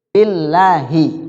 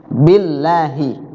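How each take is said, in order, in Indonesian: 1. Huruf L dibaca tipis. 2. Huruf L dibaca tipis.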